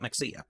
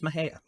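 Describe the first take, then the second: First: The middle consonant is a ks sound. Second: The middle consonant is an h sound. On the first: The speaker calls it wrong. "I used to call it Mexia" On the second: The speaker calls it right. "It is Mahia"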